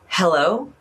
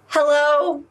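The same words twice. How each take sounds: First: It is said low and relaxed. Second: It is said high and tense.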